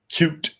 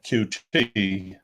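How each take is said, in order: First: It is said as a single word. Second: It is said as two separate letters.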